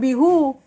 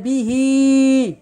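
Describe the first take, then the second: First: The pronoun ends with a 'u' vowel. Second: The pronoun ends with an 'i' vowel. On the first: The speaker calls it wrong. "Bukan bihu" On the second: The speaker calls it right. "fa akhraja bihi"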